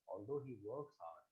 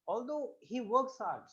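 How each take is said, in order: First: The pitch stays level with a flat intonation. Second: The pitch moves with a varied intonation. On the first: The speaker calls it wrong. "Now I can't say" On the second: The speaker calls it right. "Change your tone here, right? Vary your intonation"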